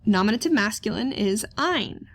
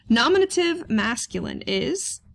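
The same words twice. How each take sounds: First: Settled statement landing on ein; answering tune. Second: Rising, open-ended prompt to the class; asking tune. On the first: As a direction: give the answer firmly on ein. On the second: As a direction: leave it hanging for students to answer. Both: Shown as a demonstration.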